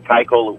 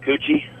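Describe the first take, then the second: First: The name ends with an 'l' sound. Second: The name ends with an 'ee' sound. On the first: The speaker calls it right. "would generally be correct" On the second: The speaker calls it wrong. "what's the weirdest pronunciation you heard of it?"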